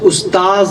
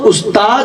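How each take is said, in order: First: The word ends with a z sound. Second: The word ends with a d sound. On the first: The speaker calls it right. "ये लफ्ज़ उस्ताज है। ये दाल के ऊपर नुक्ता है, ये जाल है।" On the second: The speaker calls it wrong. "ये लफ्ज़ उस्ताद नहीं है, दाल नहीं है"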